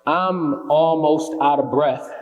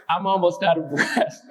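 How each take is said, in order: First: Slow, deliberate spoken-word opening line; poem opening. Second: Poem line breaking up into real laughter; laughing restart. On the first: Acted. Poet opens The Chase for the audience, slow and deliberate. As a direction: start the poem in earnest, stretching the words. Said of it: "But that was the poem". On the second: Real, not acted. Poet restarts the poem amid audience banter, laughing. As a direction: try the opening line and crack up.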